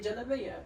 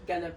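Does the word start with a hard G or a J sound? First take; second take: J; hard G. First: The word starts with a J sound. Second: The word starts with a hard G sound. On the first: The speaker is from the countryside. "they pronounce the gim as J" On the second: The speaker is from the city. "here in Kaya, we say like Galabaya"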